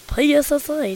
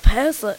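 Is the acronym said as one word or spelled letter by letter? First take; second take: letter by letter; one word. First: It is spelled out letter by letter. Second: It is said as a single word. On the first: The speaker calls it right. "it's PSSA" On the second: The speaker calls it wrong. "It's not PASSA"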